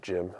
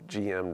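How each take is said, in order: First: It is said as one word, rhyming with him. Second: It is spelled out as two letters.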